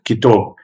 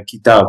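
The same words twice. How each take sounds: First: "kitab" with a rounded "aw" vowel; full-mouth pronunciation. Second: "kitab" with an open, unrounded "a"; light pronunciation. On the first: Repeating his dialect's word for book, full-mouth "kitab". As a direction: fill the mouth on "kitab", like "kitawb". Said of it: "ours is more of a full mouth". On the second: Showing how others say book, light "kitab". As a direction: keep the vowel of "kitab" light and forward. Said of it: "kitab is more of a light sounding". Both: Shown as a demonstration.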